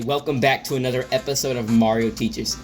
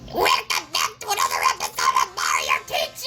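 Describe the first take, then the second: First: It is said in the speaker's normal voice. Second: It is said in a Mother Witch voice.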